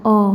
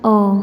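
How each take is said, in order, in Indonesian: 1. Vokalnya membulat, seperti o. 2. Vokalnya membulat, seperti o.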